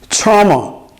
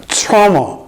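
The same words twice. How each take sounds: The two takes are said the same way.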